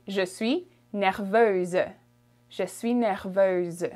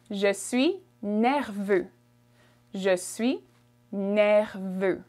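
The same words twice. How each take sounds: First: "nerveuse" with a voiced z at the end; feminine French form. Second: "nerveux" ending on an open vowel, no z; masculine French form. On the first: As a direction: sound the final z in "nerveuse". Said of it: "from feminine, you would say". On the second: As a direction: keep "nerveux" free of a final z. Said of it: "That's for masculine". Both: Shown as a demonstration.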